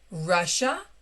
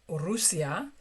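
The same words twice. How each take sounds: First: It is pronounced with English sounds. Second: It is pronounced with Spanish sounds.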